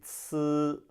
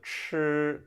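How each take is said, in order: First: It starts with a flat ts sound. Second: It starts with a curled-back ch sound. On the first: "would be" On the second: "instead of"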